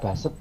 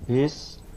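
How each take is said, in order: First: The word is read as written, 'ba-set'. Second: The word is said as English 'based'. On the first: The speaker calls it wrong. "Jangan dibaca baset ya" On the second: The speaker calls it right. "tapi problem based learning"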